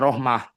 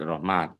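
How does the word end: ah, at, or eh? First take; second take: ah; at. First: The word ends with an ah and breath. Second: The word ends with a clear t sound. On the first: "ketika wakaf itu bisa rohmah dibacanya" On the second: "dengan tak Rohmat"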